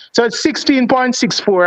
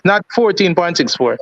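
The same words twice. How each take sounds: First: Sixteen said slow and firm; "sixteen" stretched out and leaned on, slower pace; correcting the number. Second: Said in the usual way. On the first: Shown as a demonstration. Host corrects his own wrong distance, stressing "sixteen". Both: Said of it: "me say fourteen because it's a mistake".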